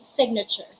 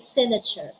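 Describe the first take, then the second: First: The G is sounded in the word. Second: The G is silent in the word. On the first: The speaker calls it right. "we say signature" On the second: The speaker calls it wrong. "we don't say signature"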